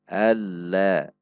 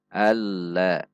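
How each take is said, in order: Both takes have the same delivery.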